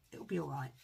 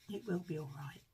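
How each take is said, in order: First: Said in the usual way. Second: "will" spoken in full and leaned on; reassuring, stress on will. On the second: Real, not acted. Crafter reassuring viewers about the graphite, stressing "will". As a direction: insist it really will be fine, hitting "will".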